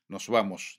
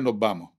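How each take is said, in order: First: The final s is fully pronounced. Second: The final s is dropped entirely. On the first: This is the conservative speech of El Hierro. "Mantenimiento de las eses finales. Nos vamos, diría un herreño" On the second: This is the most evolved speech, of Las Palmas. "en Las Palmas dirían nos vamos, perdemos la aspiración"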